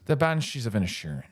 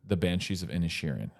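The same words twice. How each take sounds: First: It is said in an Irish accent. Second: It is said in the speaker's ordinary accent.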